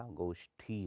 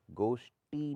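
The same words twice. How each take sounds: First: गोष्ठी slowly, ending in breathy thi; aspirated th. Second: गोष्ठी said as goshti; hard dry ti ending गोष्ठी; unaspirated t. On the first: Teacher corrects it, गोष्ठी with breathy ठी. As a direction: puff air on the ठी of गोष्ठी. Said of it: "होता है". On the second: Teacher shows the error, गोष्ठी with टी. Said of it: "नहीं होता". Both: Shown as a demonstration.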